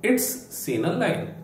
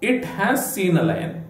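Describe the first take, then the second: First: It has is shortened into one syllable. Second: It has is said as two full words. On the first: "ಇಟ್ ಹ್ಯಾಸ್ ಅನ್ನು ಇಟ್ಸ್ ಅಂತ ಹೇಳ್ತೇವೆ" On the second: "ಇಟ್ ಹ್ಯಾಸ್"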